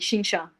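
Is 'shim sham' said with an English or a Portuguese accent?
Portuguese. It is said with a Portuguese accent. This is how the speaker's own group says it. "we say shim sham"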